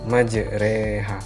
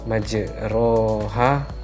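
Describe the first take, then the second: First: The vowel after the r sounds like 'e'. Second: The vowel after the r sounds like 'o'. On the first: The speaker calls it right. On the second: The speaker calls it wrong.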